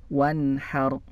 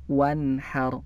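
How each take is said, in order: Both takes have the same delivery.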